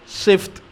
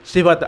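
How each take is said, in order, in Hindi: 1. "f" और "t" के बीच कोई स्वर सुनाई नहीं देता। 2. "f" और "t" के बीच एक छोटा स्वर सुनाई देता है। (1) "अक्सर लोग जो हैं वो गलती करते हैं, वो कहते हैं सिफ्त" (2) "असल लफ्ज़ जो है वो सिफत है"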